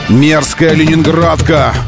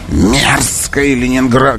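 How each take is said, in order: First: It is said in the speaker's ordinary voice. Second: It is said in a put-on, theatrical voice.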